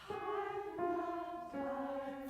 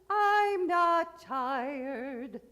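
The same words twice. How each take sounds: First: It starts with a breathy h-like onset. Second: It starts with a hard glottal catch.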